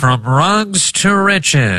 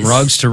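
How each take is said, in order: First: It is said in an old-timey radio voice. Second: It is said in a normal speaking voice.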